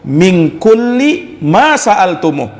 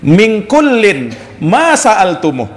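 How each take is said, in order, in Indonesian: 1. Kata kulli diucapkan tanpa bunyi n di akhir. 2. Kata kullin diucapkan dengan bunyi n di akhir.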